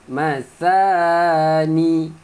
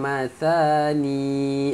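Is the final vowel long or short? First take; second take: short; long. First: The final vowel is short. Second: The final vowel is drawn out long. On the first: The speaker calls it right. "pendek eh" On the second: The speaker calls it wrong. "jangan baca mathani"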